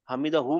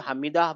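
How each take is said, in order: First: The word ends with a final 'hu' syllable. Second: The word stops without the final 'hu' syllable. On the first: The speaker calls it wrong. "हमीदा हु मत बोलिए" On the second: The speaker calls it right. "हमीदा बोल के रुकना पड़ेगा"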